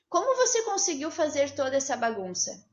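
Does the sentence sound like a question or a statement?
statement. It is said without a questioning tune. Nobody is being asked anything. "Eu não falei num tom de pergunta"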